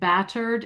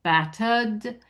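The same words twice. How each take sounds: First: The R after the vowel is pronounced. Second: The R after the vowel is not pronounced. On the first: The speaker calls it wrong. "you hit one R when you said bat you said battered" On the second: The speaker calls it right. "it's a vowel, yeah, a vowel R"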